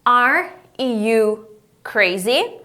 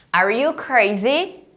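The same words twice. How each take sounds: First: "Are... you... crazy?" very slow, rising at the end; drawn-out teacher model of "Are you crazy?"; word-by-word question. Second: "Are you crazy?" slow, lifting at the end; teacher modelling a rising "crazy?"; question intonation. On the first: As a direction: separate each word, then lift "crazy". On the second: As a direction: let "crazy" rise as a question. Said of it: "Faz entonação de pergunta". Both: Shown as a demonstration.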